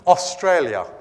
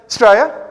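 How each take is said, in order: First: Every syllable of the word is said clearly. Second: The syllables are run together and slurred. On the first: "no one in Australia says Australia. Like no one speaks like that" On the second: "They say Australia"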